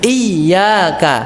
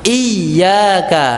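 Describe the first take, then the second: No difference in how they are said.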